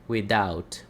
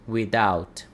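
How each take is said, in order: Both takes have the same delivery.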